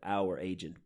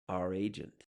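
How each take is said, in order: First: The word 'our' has its full vowel. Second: The word 'our' is reduced to a schwa. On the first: "That's how we pronounce this word" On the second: "now that it's become a function word"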